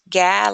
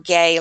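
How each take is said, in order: First: The vowel is the short a sound. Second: The vowel is the long ay sound. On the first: "like in gap" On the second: "like in gate"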